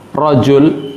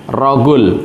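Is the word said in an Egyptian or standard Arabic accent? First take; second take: standard; Egyptian. First: It has a soft j sound, standard Arabic style. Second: It has a hard g sound, Egyptian style.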